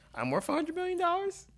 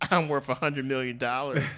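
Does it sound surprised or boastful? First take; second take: surprised; boastful. First: It sounds surprised and amazed. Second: It sounds boastful and confident.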